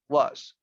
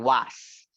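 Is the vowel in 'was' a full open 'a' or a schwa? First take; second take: schwa; open a. First: The vowel is a weak, unstressed schwa sound. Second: The vowel is a full, open 'a' sound. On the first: The speaker calls it right. "the pronunciation of this one is with a schwa ... We don't stress it out" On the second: The speaker calls it wrong. "we as Spanish speaking people, we say was ... con una A"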